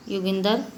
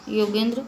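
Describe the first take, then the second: First: योगिंदर with the final cluster split, yogin-dar; Punjabi pronunciation. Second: Said in the usual way. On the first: Shown as a demonstration. Teacher showing how Punjabis say it, योगिंदर. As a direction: end योगिंदर on dar instead of dra. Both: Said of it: "Punjabi भाषी".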